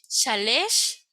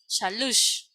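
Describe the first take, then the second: First: The last syllable has an e vowel. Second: The last syllable has a u vowel. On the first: "puede pronunciarse A, E" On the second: "o puede ser la U"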